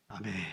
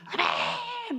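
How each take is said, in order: First: It is said quietly. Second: It is said very loudly.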